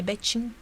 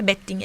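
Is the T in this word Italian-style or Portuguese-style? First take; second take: Portuguese; Italian. First: The T is pronounced in the Portuguese way. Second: The T is pronounced in the Italian way. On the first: The speaker calls it right. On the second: The speaker calls it wrong.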